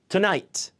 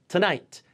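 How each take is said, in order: The two takes are said the same way.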